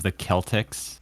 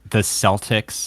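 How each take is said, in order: First: The word begins with a hard K sound. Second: The word begins with a soft S sound. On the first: This is the correct pronunciation. "instead of the Celtics" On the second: This is how Americans say it. "we say like the Celtics"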